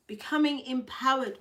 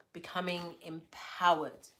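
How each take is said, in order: First: Hyped-up reread, higher pitch; pumped-up repeat; excited. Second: Said in the usual way. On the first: Shown as a demonstration. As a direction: lift it up like a rallying cry.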